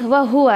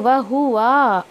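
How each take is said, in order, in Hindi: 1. आख़िरी स्वर छोटा ही रखा जाता है। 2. आख़िरी स्वर लंबा खींचकर पढ़ा जाता है।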